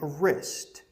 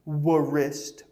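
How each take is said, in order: First: The w at the start is silent. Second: The w at the start is pronounced. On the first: The speaker calls it right. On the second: The speaker calls it wrong. "Don't say"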